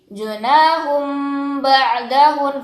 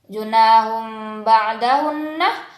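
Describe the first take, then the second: First: The phrase ends on the n with no vowel. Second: The final doubled n is followed by a vowel. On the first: The reader stops at the pause mark. "menjadi junahum ba'dahun karena bertemu dengan wakaf" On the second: The reading continues without stopping. "yang tadinya junahum ba'dahunah"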